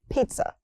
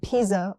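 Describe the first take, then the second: First: The middle consonants are not sharp Z sounds. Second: The middle consonants are sharp Z sounds. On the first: The speaker calls it right. "It's pizza" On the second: The speaker calls it wrong. "with sharp Z's"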